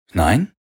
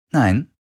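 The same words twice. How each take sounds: First: NEIN rising sharply as a question; "Nein?" lifted at the end, querying. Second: NEIN falling to a full stop; "Nein." pitched up, then dropped decisively; firm answer. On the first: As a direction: ask "Nein?" with a rising tune. Acted question echoed in answer. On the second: Answer echoing the question. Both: A narrator's reading.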